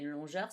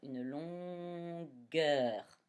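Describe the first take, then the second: First: The middle g is soft, like zh. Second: The middle g is hard, like in go. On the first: The speaker calls it wrong. "le G va chanter je" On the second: The speaker calls it right. "je mets mon U muet"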